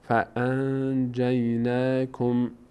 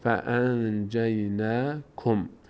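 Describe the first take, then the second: First: The n is hidden and said through the nose. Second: The same.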